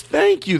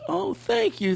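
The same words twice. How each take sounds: First: Much higher, louder astonished thanks; imitating the kid's surprised thanks; amazed thank you. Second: Very high, soft and awed thanks; imitating the kid's heartfelt thanks; heartfelt realization. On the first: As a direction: sound stunned to be thanked. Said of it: "he goes". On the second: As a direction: realize it and mean it. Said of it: "And then he realized".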